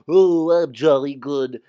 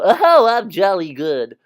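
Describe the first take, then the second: First: It is said in a deep voice. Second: It is said in an ordinary voice. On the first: The speaker calls it right. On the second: The speaker calls it wrong.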